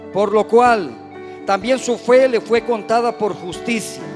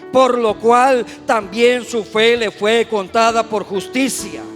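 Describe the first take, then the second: The two takes are said the same way.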